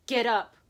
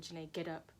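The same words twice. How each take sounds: First: Loud, punched command; sudden raised-voice command; forceful self-urging. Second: Low, soft command to oneself; subdued inner order; quiet self-urging. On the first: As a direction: order yourself up with force. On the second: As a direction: urge yourself up under your breath. Tells herself to get up. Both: Retold or imitated.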